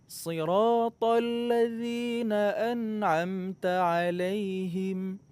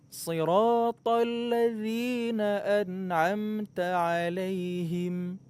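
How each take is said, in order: Both takes have the same delivery.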